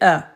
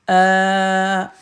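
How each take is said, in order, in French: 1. La voyelle est brève. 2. La voyelle est longue, on la prolonge. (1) "Fatha, ça, c'est A" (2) "On prolonge"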